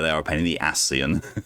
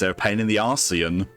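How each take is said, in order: First: The last word is said the usual way, Ascian. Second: The last word is said like Arcean.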